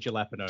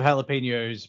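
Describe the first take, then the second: First: The word has a deliberately altered pronunciation. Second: The word has its usual pronunciation. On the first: "we say jalapenos" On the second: "Instead of jalapenos"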